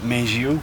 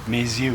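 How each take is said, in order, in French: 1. Un son j relie les deux mots. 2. Un son z relie les deux mots. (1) "كان يقول" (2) "والصح انه"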